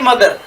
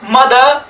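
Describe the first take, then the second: First: The final r sound is clearly pronounced. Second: The final r sound is not pronounced. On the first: The speaker calls it wrong. "न कि मदर" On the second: The speaker calls it right. "जब last में आर आता है तो उसको हम प्रोनाउन से नहीं करते"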